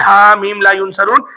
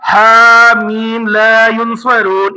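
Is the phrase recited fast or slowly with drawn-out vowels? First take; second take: fast; slow. First: It is recited quickly without stretching the vowels. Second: It is recited slowly with the vowels drawn out. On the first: The speaker calls it wrong. "हरगिज भी तेज तेज नहीं पढ़िएगा, जैसे ... ऐसे नहीं पढ़िएगा" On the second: The speaker calls it right. "इस तरीके से ही पढ़िएगा"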